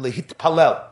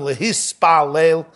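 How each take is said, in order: First: The word has a t sound before "palel". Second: The word has an s sound before "palel".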